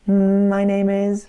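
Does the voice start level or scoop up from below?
level. The voice starts right on its target pitch.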